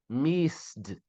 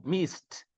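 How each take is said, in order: First: "missed" ending in a voiced d; mistaken D ending. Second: "missed" ending in a crisp voiceless t. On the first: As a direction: say "missed" as "misd". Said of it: "missed, perdão". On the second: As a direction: say "missed" as "mist". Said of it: "som de T, ó". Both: Shown as a demonstration.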